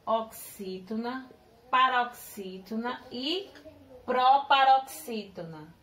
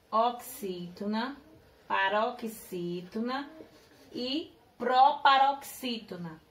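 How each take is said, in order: Both takes have the same delivery.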